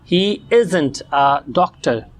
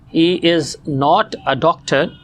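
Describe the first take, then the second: First: Not is reduced and joined to the verb. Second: Not is said as a full separate word.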